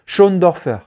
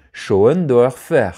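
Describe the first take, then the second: First: "Schoendorfer" blurted loud as a quick first guess; "Schoendorfer" tossed off, unsure of the German name; first try at a name. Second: "Schoendorfer" spelled out syllable by syllable, very slowly; careful slow retry. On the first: Vlogger stumbling over a director's name, quick guess. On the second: Vlogger retrying the German name, slow and careful. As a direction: sound out "Schoendorfer" with great care. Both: Shown as a demonstration. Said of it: "pardon, je sais pas le dire".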